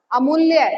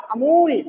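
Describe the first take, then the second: First: अमूल्य said with a doubled ल्ल and a clear final य; careful teaching pronunciation. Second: अमूल said slowly with a long ऊ and a clear final ल; careful teaching pronunciation. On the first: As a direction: lean on the ल्य cluster in अमूल्य. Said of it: "हमने बोला अमूल्य". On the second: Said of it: "ऊ का जो उच्चारण है वो बिल्कुल सटीक आ रहा है". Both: Shown as a demonstration.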